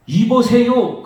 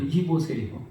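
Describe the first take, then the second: First: Loud, higher rude "이보세요!" with a falling end; rude shout. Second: A cold quiet "이보세요."; soft dismissive. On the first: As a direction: bark "이보세요!" at the father. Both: Retold or imitated. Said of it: "그러는 거예요".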